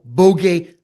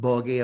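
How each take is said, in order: First: It is said like the word 'bogey'. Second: It is said like the word 'boggy'. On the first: The speaker calls it right. "the one and only Paul Bogey" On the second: The speaker calls it wrong. "not Boggy"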